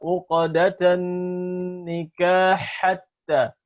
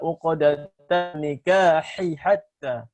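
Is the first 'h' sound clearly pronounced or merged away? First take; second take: merged; pronounced. First: The first h merges into the next h. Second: The first h is clearly pronounced separately. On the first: The speaker calls it wrong. "mengidghamkannya dengan idgham kamil. Ya, dibaca" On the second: The speaker calls it right. "tidak dibaca"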